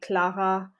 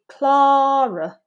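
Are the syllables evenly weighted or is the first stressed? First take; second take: even; first stressed. First: Both syllables carry roughly equal weight. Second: The first syllable is strong, the second weak. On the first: "In European French, the syllable weight is quite even across syllables" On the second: "But in English, this would be"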